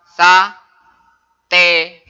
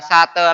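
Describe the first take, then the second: First: The first vowel is a clear e. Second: The first vowel is a weak schwa. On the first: The letter has both pepet and ya. The speaker calls it right. "Kalau sudah ditambahi ya ini ... tapi dibaca sate. Sate kambing" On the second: The letter has only the pepet mark. The speaker calls it wrong. "Ini kalau cuma ada pepet maka bacanya sate ... bukan sate lagi"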